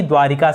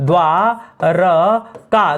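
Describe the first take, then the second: First: द्वारिका said with a clear i: dwaa-ri-ka; teacher voicing the wrong द्वारिका; wrong pronunciation. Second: द्वारका said slowly as dwaar-ka, no i after r; teacher's slow model द्वारका; correct pronunciation. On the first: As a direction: quote the mistaken द्वारिका with an i after r. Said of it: "ना कि द्वारिका शब्द होता है". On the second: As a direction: stretch out द्वारका with a short a in the middle. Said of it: "शब्द होता है द्वारका". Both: Shown as a demonstration.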